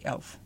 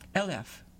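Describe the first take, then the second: First: It is one clipped syllable, northern Dutch. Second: It is stretched into two syllables, Southern Dutch.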